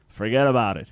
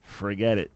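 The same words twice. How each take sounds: First: Put-on a light New York accent on forget about it, slightly louder. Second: Said in the usual way. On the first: Host quoting New York friend, mild New York accent. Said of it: "I just don't have the thick New York accent". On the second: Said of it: "Or as they say in New York".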